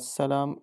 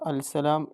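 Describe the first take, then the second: First: The 'l' merges into a doubled 's'. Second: The 'l' is pronounced before the 's'. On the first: The speaker calls it right. "അസ്സലാം എന്നാണ് പറയുക" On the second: The speaker calls it wrong. "അൽസലാം എന്ന് പറയില്ല"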